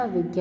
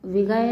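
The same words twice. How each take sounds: First: Said in the usual way. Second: विगय split as "vi-ga-ya"; mispronounced. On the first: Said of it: "होता है". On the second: Shown as a demonstration. Teacher showing students an error, विगय with extra vowel. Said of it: "नहीं होता".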